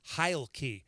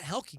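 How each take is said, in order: First: The first vowel sounds like 'eye'. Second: The first vowel sounds like 'eh'. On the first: The speaker calls it right. "I found out it's Heilke" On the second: The speaker calls it wrong. "it's not Helke"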